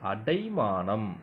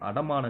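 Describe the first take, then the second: First: The second syllable is 'dai' with a diphthong. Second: The second syllable is a short 'da'. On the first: The speaker calls it right. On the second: The speaker calls it wrong.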